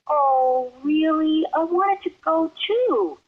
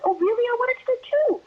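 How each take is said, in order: First: It is said at a relaxed, slower pace. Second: It is said quickly to fit the lips.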